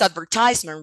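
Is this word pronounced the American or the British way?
American. It uses the American English pronunciation. "in American English it's advertisement"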